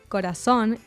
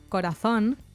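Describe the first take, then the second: First: The z is pronounced like an s. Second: The z is pronounced like English th. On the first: This is the Latin American pronunciation. "how she said corazón" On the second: This is the pronunciation used in Spain. "instead of corazón"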